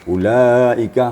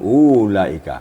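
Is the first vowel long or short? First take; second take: short; long. First: The first vowel is short. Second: The first vowel is drawn out long. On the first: The speaker calls it right. "bukan waw mat" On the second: The speaker calls it wrong. "u-nya ada mat di situ"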